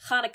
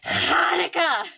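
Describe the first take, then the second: First: The opening throaty sound is mild. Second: The opening throaty sound is heavily exaggerated. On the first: "instead of being like, you know, it would be like" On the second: "now everyone exaggerates it a lot"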